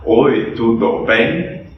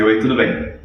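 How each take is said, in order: First: Slow, each syllable separate like a foreign learner; a gringo spelling out "Oi, tudo bem?" slowly. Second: Said in the usual way. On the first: Retold or imitated. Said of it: "aquele gringo que vem pro Brasil e fala". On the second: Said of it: "não a frase".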